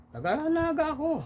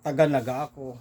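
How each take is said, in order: First: Put-on high, with no trace of the Bula accent; convincing Naga accent. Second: Put-on says it with a telltale Bula accent; the Bula accent slips through; Bula-accented Tagalog. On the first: Bula cockfighter fools the Naga men, in a Naga accent. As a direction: pass as a Naga local. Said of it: "Walang tono". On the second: Bula passenger betrays his accent to the Naga men. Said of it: "Sa tono mo lang".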